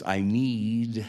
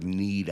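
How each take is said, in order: First: Need stretched long and slow; dragged out need. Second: Said in the usual way. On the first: Retold or imitated. Dying friend struggling to ask, need dragged out. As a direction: draw the word need out. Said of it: "he just drugged that last word, "need," out". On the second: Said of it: "he just drugged that last word".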